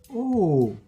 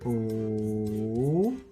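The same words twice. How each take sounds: First: It is said with the fourth Mandarin tone. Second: It is said with the third Mandarin tone.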